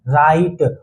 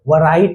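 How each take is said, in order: First: The word starts with no W sound. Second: The word starts with a sounded W. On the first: The speaker calls it right. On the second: The speaker calls it wrong.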